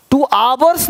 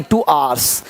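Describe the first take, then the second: First: "two आवर्स" with a full v, aa-vars; wrong pronunciation. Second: "two आवर्स" with आवर्स merged into aars, low and falling; correct pronunciation. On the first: Teacher shows what not to say, wrong pronunciation. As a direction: say "आवर्स" in two syllables with a clear v. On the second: Teacher corrects the phrase, correct pronunciation. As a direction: drop the v in "आवर्स", one syllable, pitched low. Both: Shown as a demonstration. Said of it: "two आवर्स नहीं".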